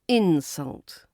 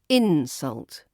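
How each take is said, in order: First: The stress is on the first syllable. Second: The same.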